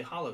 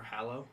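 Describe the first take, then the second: First: "Hallow" with a broad "ah" in the first syllable; first pronunciation. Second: "Hallow" with a short "a" as in cat, rising; alternative pronunciation. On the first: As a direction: say "Hallow" as HAH-loh. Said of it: "Or Hallow?". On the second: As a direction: try "Hallow" as HAL-oh, questioning. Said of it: "I think it's Hallow". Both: Shown as a demonstration.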